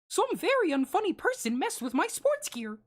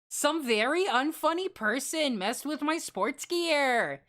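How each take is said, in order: First: It is said in a put-on cartoon mouse voice. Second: It is said in an ordinary natural voice.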